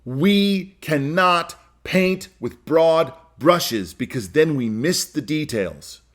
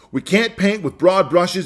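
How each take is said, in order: First: Each word laid down slowly; measured emphatic statement; slow and deliberate. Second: Said in the usual way. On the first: Shown as a demonstration. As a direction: spell it out word by word for weight. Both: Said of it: "Here's the first thing I believe".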